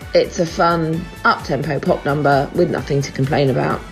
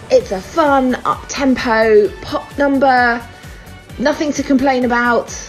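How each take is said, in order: First: It is said in a flat, unimpressed tone. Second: It is said in a warm, approving tone. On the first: The song is bland and unremarkable. "But on the other hand" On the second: The song is genuinely good. "on the one hand"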